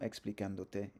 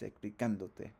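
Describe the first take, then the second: First: The stress falls away from the 'can' syllable. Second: The stress falls on the 'can' syllable. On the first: The speaker calls it wrong. "It's not" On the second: The speaker calls it right.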